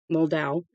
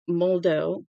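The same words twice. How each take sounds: First: "Moldow" ending in an ow sound; second pronunciation attempt. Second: "Moldow" ending in a long oh; name pronunciation attempt. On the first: Reader retrying a thanked name, "Moldow" ending as in "cow". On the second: Reader trying an author's thanked name, "Moldow" ending in oh. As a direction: say "Moldow" to rhyme with "go". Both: Shown as a demonstration. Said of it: "if I mispronounce any names".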